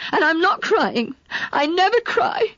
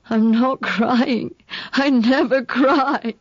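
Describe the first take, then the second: First: High, fierce insistence; indignant denial. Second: Very slow, weepy words; tearful denial. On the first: Girl protesting to Mark she never cries, indignant. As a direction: push the denial out hotly. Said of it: "I cried furiously". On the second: Girl weeping beside Mark, denying her tears. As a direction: choke it out between sobs. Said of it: "wept bitterly". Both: A narrator's reading.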